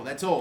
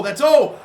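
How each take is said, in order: First: Said in the usual way. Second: Much higher and louder, boiling over; frustrated yell. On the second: Real, not acted. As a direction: blow up on the last repeat. Repeating it, building frustration.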